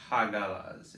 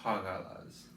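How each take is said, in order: First: Hagalas with a hard G; hard G version. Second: Hagalas with a soft throaty G from the back of the throat; guttural G. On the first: Teacher showing the wrong hard G, crisp. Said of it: "It wasn't a hard G, so it was not". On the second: Teacher giving the correct old pronunciation, throaty. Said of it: "it was Hagalas". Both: Shown as a demonstration.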